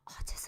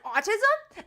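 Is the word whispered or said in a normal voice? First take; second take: whispered; normal. First: The word is whispered. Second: The word is said in a normal voice. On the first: The word is treated as shameful to say. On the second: The word is treated as an ordinary word.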